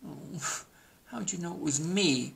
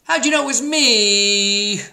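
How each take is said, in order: First: Softer, higher dejected turkey groan; mock groan. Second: High, loud, drawn-out turkey howl; hammed-up howl. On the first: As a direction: groan it quietly like a found-out turkey. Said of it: "groaned Turkey". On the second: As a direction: howl it like a cartoon turkey found out. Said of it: "howled Turkey". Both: A narrator's reading.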